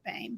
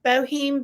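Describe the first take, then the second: First: The name is said with one syllable. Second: The name is said with two syllables. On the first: The speaker calls it right. "but we pronounce it Bame" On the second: The speaker calls it wrong. "I know it looks like Bohem"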